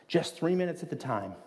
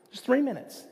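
First: Said in the usual way. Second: "three" lifted high and held, falling after; stress on three. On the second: Real, not acted. Pastor repeating the point to the congregation, "three" lifted high.

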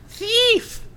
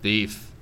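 First: High shrieking imp cry; giggly sneering imp. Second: Said in the usual way. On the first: Acted. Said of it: "That's a weird voice". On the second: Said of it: "I gotta do something different".

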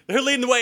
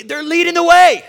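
First: Said in the usual way. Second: High, loud rise on the last words; triumphant storyteller's yell; rousing shout. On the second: Acted. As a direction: belt it out, climbing to a peak. Exclaims the climax, then repeats it.

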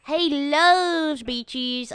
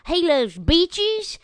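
First: Even slower, higher southern dog voice, leaning on "loves"; Cokie the dog. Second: Slow, higher southern dog voice stretching out "beaches"; Cokie the dog. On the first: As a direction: savor "loves" in a lazy southern dog drawl. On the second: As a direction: drawl "beaches" slowly like a laid-back southern dog. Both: Retold or imitated. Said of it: "And Cokie kinda talks like this".

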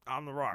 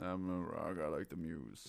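First: The Rock impression. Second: Deep, quiet gravelly Rock voice; low, soft tough-guy growl; talking rock. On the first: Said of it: "The Rock is like". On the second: Retold or imitated. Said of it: "Why does my rock impression".

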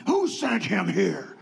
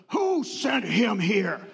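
First: Slow, gruff question repeated; mock the curt doctor; rude doctor. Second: Slow, gruff demand; mock the curt doctor asking who sent him; rude doctor. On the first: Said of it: "rude doctor repeated". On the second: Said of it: "he goes".

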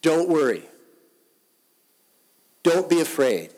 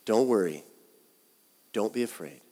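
First: Loud, urgent preaching of the words; forceful proclaiming. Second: Said in the usual way. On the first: Acted. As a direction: call it out like a command of comfort. Pastor urges congregation with Jesus' words.

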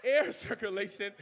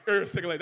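First: "air circulation" with "air" said as full, careful "air"; deliberate "air circulation"; corrected pronunciation. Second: "er circulation" with "air" said as a quick, laughing "er"; fast, laughing "er circulation"; country pronunciation. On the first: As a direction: say "air circulation" properly, with a small laugh. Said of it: "you heard me, er circulation". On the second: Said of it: "that's how we talk". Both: Shown as a demonstration.

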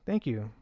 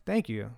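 The two takes are said the same way.

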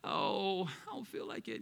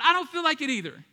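First: Imitated reluctant moan; reluctant churchgoer. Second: Said in the usual way. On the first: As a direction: sigh it out, half under your breath. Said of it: "Many of us were like".

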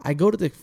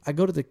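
Both takes have the same delivery.

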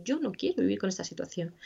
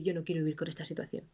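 First: Said in the usual way. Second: Softer, quick inner refusal, a touch of sadness; quietly voiced refusal. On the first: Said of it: "Pero es humano decir". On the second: Therapist voicing a grieving person's inner thought, quiet and quick. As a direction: murmur it fast, like a thought you hardly admit. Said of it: "Y es humano decir".

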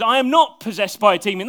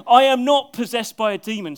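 First: Loud, forceful denial; emphatic denial. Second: Loud denial with a laugh in it; amused repeat of the denial; laughing retake. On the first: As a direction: declare it firmly, hitting not. Voicing Jesus' firm denial. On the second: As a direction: say it again, chuckling at the line. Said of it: "That's a good way to answer". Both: Acted.

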